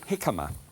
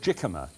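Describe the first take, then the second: First: The word does not begin with a J sound. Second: The word begins with a J sound. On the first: The speaker calls it right. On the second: The speaker calls it wrong.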